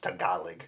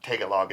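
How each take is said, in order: First: Tagalog as ta-GAH-log, stress on the middle syllable; correct pronunciation of Tagalog. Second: Tagalog as TAG-a-log, stress up front; wrong pronunciation of Tagalog. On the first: Teaching the host the real name, Tagalog as ta-GAH-log. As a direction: say Tagalog properly, leaning on GAH. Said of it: "it's actually pronounced Tagalog". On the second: Correcting the host on Tagalog, wrongly said as TAG-a-log. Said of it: "And it's not Tagalog". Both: Shown as a demonstration.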